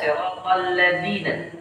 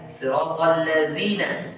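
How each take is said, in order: First: The consonant sounds like a d. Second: The consonant sounds like a z. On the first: "yang kedua ini orang Indonesia suka" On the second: "seperti orang Mesir"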